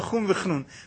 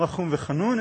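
First: The last word starts with a cluster: chnun. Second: The last word has a full vowel: chanun. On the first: Merciful and a bit of a nerd. "אלא רחום וחנון" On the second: Merciful and gracious. "לא רחום וחנון"

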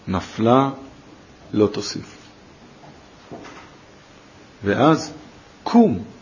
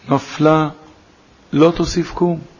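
First: The break comes right before the last word. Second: The break comes right after the first word. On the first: She has fallen and will not fall again; rise. "קראו את הפסוק הזה אחרת, עם אותם מילים" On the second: She has fallen and will never rise again. "נפלה, לא תוסיף קום. עם ישראל לא יכול לקום משפל כזה"

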